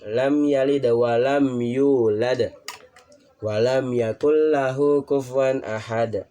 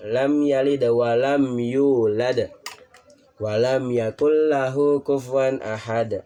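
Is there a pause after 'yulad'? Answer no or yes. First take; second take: yes; yes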